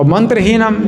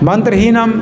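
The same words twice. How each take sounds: Both takes have the same delivery.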